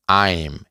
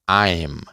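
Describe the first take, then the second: The two takes are said the same way.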